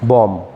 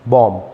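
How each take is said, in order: Both takes have the same delivery.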